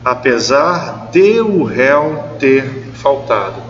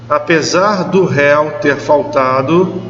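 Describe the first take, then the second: First: De and o are said as separate words. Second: De and o merge into one word, do. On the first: The speaker calls it right. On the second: The speaker calls it wrong.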